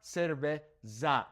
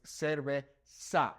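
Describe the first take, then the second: First: "cerveza" slowly, its last syllable with a buzzing English Z; wrong buzzed Z. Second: "cerveza" slowly, ending in a hissed "sa"; S instead of Z. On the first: Teacher showing the mistake to avoid, "cerveza" with buzzed Z. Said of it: "Z is not pronounced as Z". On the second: Teacher correcting the mistake, "cerveza" with an S sound. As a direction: say "cerveza" syllable by syllable, the Z as a clear S. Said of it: "that S sound". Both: Shown as a demonstration.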